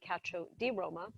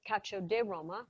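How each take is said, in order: First: It is said with a standard Italian pronunciation. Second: It is said with a Roman dialect pronunciation. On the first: This is the proper national form. The speaker calls it right. "Proper uh, Italian would be" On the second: This is how locals in Rome say it. The speaker calls it wrong. "We call it cacio di Roma, which is Roman slang"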